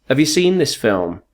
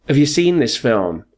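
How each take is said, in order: No difference in how they are said.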